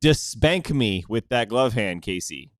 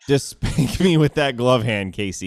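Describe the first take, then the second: First: The line is said straight, without giggling. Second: The line is said while giggling. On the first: The speaker calls it right. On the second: The speaker calls it wrong.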